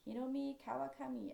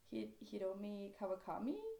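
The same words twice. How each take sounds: First: The name is said with a Japanese accent. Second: The name is said with a Norwegian accent. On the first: "if I was trying to speak Japanese" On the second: "how I would pronounce it in my language"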